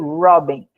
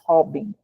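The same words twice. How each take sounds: First: The first R is an English R sound. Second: The first R is a Portuguese R sound. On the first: The speaker calls it right. "vai ser Robin" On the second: The speaker calls it wrong. "A gente não vai ler como a gente leria em português"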